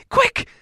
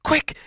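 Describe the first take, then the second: First: Much higher, breathless gasp of Quick!; Quick! gasped in a sudden high panic; gasped alarm. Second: Said in the usual way. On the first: Acted. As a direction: Bilbo gasping Quick! in fright. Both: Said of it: "he gasped".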